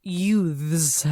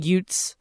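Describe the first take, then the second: First: "youths" with a careful, exaggerated TH; over-enunciate the TH in youths; Joe Pesci's corrected pronunciation. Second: "Utes" with a hard T for youths; Joe Pesci's mispronunciation. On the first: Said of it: "finally he goes". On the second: Retold or imitated. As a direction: say "Utes", no TH sound. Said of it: "he keeps on saying".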